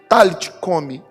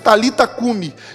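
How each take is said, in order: First: The first word ends without a final vowel. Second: The first word ends with a final vowel. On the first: This is the original pronunciation. The speaker calls it right. "no original nós vemos que a pronúncia de Jesus foi" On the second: This is how the written form is usually read. The speaker calls it wrong. "na transliteração nós lemos"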